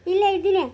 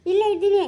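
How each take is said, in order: Both takes have the same delivery.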